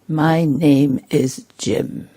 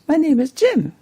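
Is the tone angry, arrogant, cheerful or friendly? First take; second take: arrogant; cheerful. First: It is said in an arrogant, superior tone. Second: It is said in a bright, cheerful tone. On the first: The speaker thinks himself above the listener. "very arrogant" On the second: The speaker is in a happy mood. "or very cheerful"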